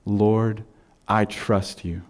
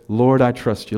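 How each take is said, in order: First: Soft, hushed and lower; quiet prayer. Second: Said in the usual way. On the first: Shown as a demonstration. Pastor showing the congregation how to pray, softly. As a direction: breathe it to God like a private plea. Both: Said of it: "Do you ever say".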